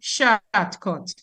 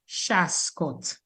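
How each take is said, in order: First: It has an altered Antiguan-style pronunciation. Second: It has a Dominican Creole pronunciation, 'shascot'. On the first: This is how newcomers said the word. "So they started saying shortcut" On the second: This is the local Creole form of the word. "we Dominicans, we fix it to Shascot"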